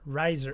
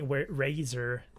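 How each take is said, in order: First: The first vowel sounds like 'eye', as in riser. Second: The first vowel sounds like 'ay', as in razor. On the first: The speaker calls it right. "riser, not razor" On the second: The speaker calls it wrong. "not razor"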